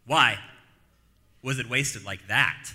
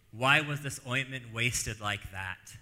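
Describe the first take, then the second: First: Why hit much louder, rest slow; stress on Why. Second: Said in the usual way. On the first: Shown as a demonstration. Pastor re-reading the critics' question, stressing Why. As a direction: punch the word Why, then draw out the rest. Repeats the quote, punching why.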